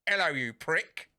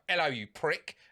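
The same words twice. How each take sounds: First: It is said in an imitated cat voice. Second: It is said in his normal voice.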